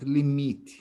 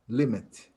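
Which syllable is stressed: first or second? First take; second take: second; first. First: The stress is on the second syllable. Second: The stress is on the first syllable. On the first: The speaker calls it wrong. "not limit" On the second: The speaker calls it right. "The stress is on the first syllable for both words"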